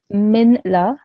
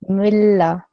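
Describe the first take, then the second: First: The n sound is clearly pronounced before l. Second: The n is dropped, merging into a doubled l. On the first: The speaker calls it wrong. "then I'm producing this noon sakin sound. That's incorrect" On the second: The speaker calls it right. "So the correct way of saying this would be milla"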